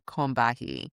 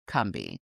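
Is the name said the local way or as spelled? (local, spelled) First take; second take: spelled; local. First: The name is pronounced as it is spelled. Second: The name is pronounced the local way. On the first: This follows the written form of the name. "It's actually spelled Combahee" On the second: This is how people from the area say it. "people from the region profound, pronounce the river Combahee"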